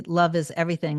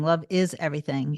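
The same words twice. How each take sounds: First: Said in the usual way. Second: "is" leaned on in affirmation; emphatic "is", the rest relaxed; stress on IS. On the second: Real, not acted. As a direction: put the weight on "is", insisting it's true. Repeats it, affirming that it is.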